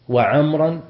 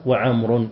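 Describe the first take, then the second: First: وعمرا drawn out slowly, ending in "-an"; slow, louder وعمرا with a clear "-an"; accusative ending. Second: وعمر drawn out slowly, ending in "-un"; slow وعمر pronounced "wa-Amrun"; nominative ending. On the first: Teacher showing both permitted case endings, accusative وعمرا ending in "-an". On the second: Teacher showing both permitted case endings, nominative وعمر ending in "-un". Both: Shown as a demonstration. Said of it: "فيجوز الرفع والنصب".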